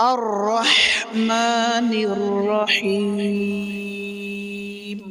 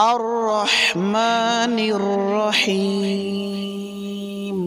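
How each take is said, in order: Both takes have the same delivery.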